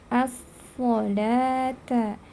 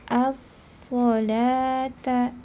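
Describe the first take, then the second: The two takes are said the same way.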